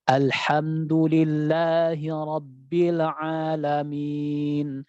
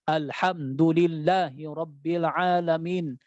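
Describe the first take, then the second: First: It is recited smoothly in one relaxed flow. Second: It is recited with jerky, forceful jolts. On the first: The speaker calls it right. "mengalir dengan dengan santainya" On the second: The speaker calls it wrong. "jadi kita buat hentakan-hentakan"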